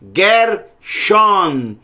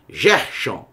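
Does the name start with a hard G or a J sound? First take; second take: hard G; J sound. First: The name begins with a hard G sound. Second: The name begins with a soft J sound. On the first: The speaker calls it right. "sempre será som de G" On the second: The speaker calls it wrong. "no português"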